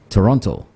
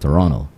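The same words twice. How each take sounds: First: The second T is fully pronounced, visitor style. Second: The second T is dropped, local Canadian style.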